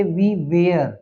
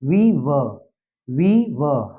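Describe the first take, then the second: First: "were" said like "wear", with a full "eh-r" vowel; the common mistake, "were" rhymed with "wear"; wrong pronunciation. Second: "were" said short as "wuh", with no "wear" vowel; teacher repeating the corrected "were" as a short "wuh"; correct pronunciation. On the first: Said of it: "ये वेयर नहीं है बच्चों". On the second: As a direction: model the right "were", a short "wuh" sound. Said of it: "वर है". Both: Shown as a demonstration.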